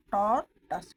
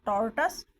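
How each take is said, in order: First: टॉर्टस split in two, टॉर, then टस; syllable by syllable. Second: Said in the usual way. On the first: Shown as a demonstration. Teacher modelling a new word for students, syllable by syllable. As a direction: break टॉर्टस after टॉर, both parts loud. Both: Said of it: "आप इनको repeat कीजिए".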